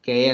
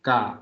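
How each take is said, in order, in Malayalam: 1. അക്ഷരത്തിന്റെ പേര് 'ay' സ്വരത്തിലാണ് അവസാനിക്കുന്നത്. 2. അക്ഷരത്തിന്റെ പേര് 'ah' സ്വരത്തിലാണ് അവസാനിക്കുന്നത്. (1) "കെ അല്ല"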